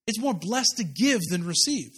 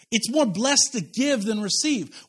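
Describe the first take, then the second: First: Said in the usual way. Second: "more" stressed, each word slowed; slow emphatic. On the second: Shown as a demonstration. Pastor drilling the verse into the church, slow and emphatic. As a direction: drive home "more blessed" slowly and firmly. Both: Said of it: "That's what Jesus says".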